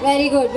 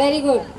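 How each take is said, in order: No difference in how they are said.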